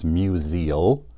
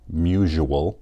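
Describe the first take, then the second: First: The name is said not rhyming with usual. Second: The name is said to rhyme with usual. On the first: The speaker calls it right. "It doesn't rhyme with usual. It's museal" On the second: The speaker calls it wrong. "Like most people, Simeon pronounces it musual, but it's not"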